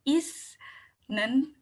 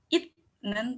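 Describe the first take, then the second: First: The middle consonant is an 's' sound. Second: The middle consonant is a 't' sound. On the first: "bukan isnen" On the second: "atau itnen"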